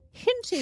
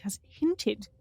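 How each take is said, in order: First: Hinted said high and loud, falling; stress on hinted. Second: Said in the usual way. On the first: Acted. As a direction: lean hard on hinted, pitched high. Dramatic repeat of word.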